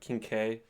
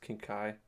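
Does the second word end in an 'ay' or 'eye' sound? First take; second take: ay; eye. First: The second word ends in an 'ay' sound. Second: The second word ends in an 'eye' sound. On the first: The speaker calls it wrong. "It's not like King K" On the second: The speaker calls it right. "It's King Kai"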